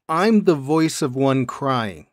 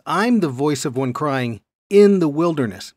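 First: Slow, with a full stop after "crying"; phrase ends on crying. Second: "in the wilderness" attached and emphasized; stress on IN THE WILDERNESS. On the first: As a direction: close the phrase firmly at "crying", then leave a pause. Contrasts where the quotation ends. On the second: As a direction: carry on past "crying" and punch "in the wilderness". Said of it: "meaning he's placing himself". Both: Shown as a demonstration.

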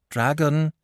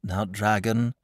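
First: Higher, pleading "dragon"; imploring. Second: Said in the usual way. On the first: A narrator's reading. Boy imploring the stubborn dragon. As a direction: beg him with the name. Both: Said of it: "said the boy imploringly".

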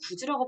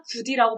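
First: 굳이 said as 구지, with a j sound; d turned to j in 굳이; palatalized 굳이. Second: 굳이 said as 구디, with a plain d; d kept before the i in 굳이; unpalatalized 굳이. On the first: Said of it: "발음을 하는 거예요". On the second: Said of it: "발음이 안 되고". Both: Shown as a demonstration.

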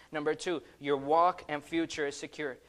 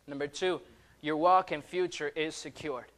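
No difference in how they are said.

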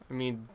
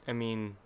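Both takes have the same delivery.

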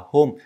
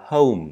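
First: "home" wrongly said "hom", with a plain short o; the mistaken "hom" for "home"; wrong vowel. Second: "home" said "howm", gliding oh-oo into m; corrected, falling "home" with a diphthong. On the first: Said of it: "không phải đọc là home mà là home". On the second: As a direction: glide the vowel of "home" before closing on m. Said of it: "Đây là âm hâu cộng với chữ M". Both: Shown as a demonstration.

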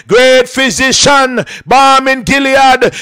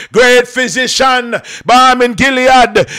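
The two takes are said the same way.

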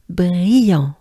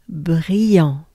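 First: "brillant" voiced and loud, nasal an. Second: Whispered brillant. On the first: Teacher giving the full voiced take after the whisper. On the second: Teacher letting learners hear a whispered take. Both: Shown as a demonstration. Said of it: "Take your time".

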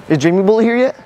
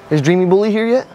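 Both takes have the same delivery.

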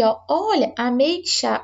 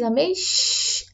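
First: Said in the usual way. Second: Ameixa said slowly, stretching the X sound; showing the X sound. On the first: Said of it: "E aí você pega aqui". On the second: Shown as a demonstration. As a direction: draw out ameixa to show its X sound. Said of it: "olha o som do X". (ameixa devagar, destacando o som do X)

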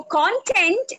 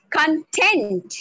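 First: "content" with CON stressed, drawn out slowly; stress on first syllable. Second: "content" with TENT stressed, con kept short; stress on last syllable. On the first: Trainer shows learners the subject-matter word, "content" stressed on CON. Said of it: "put the stress on the first syllable". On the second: Trainer shows learners the 'happy' word, "content" stressed on TENT. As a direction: lean hard on the TENT of "content". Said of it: "put the stress on the last syllable". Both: Shown as a demonstration.

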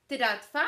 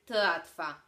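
First: Tyratwa said with a clear D-like tap before the R; good example of the trained R; correct method take. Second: Tratwa said with a faulty, non-rolled R; bad example of the R; defective R take. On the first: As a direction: demonstrate the method version first. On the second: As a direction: imitate the speech defect. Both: Shown as a demonstration. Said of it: "Co brzmi lepiej?".

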